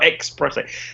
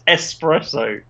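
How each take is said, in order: First: The word begins with an 'ex' sound. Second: The word begins with an 'ess' sound. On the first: The speaker calls it wrong. "not espresso" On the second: The speaker calls it right. "espresso is an Italian word, and it's espresso"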